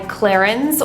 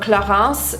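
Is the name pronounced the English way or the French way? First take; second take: English; French. First: The name is pronounced with English sounds. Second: The name is pronounced with French sounds.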